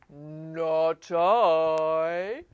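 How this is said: It is said in a low voice.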